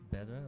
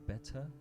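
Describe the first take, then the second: First: The word is pronounced the relaxed American way. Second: The word is pronounced very crisply and carefully. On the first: "instead of better or whatever people say here" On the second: "I overpronounce, like I say better"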